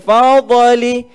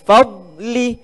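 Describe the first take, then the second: First: The d sound is released with a bounce. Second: The d sound is held without a bounce. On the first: The speaker calls it wrong. "Jangan dibaca fadli" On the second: The speaker calls it right. "huruf dad tu kita kena tahan"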